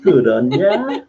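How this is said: It is said in a warm, affectionate tone. The speaker is fondly praising someone. "It can be a term of an endearment"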